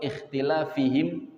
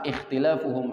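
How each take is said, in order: First: The vowel before the ending sounds like i. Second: The vowel before the ending sounds like u. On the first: Their many questions and their disagreement together destroyed them. "Yang kedua" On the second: The disagreement by itself destroyed them. "kalau di harokatid dhammah ikhtilafuhum"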